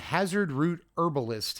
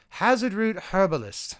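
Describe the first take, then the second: First: It is said in the speaker's normal accent. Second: It is said in a put-on English accent.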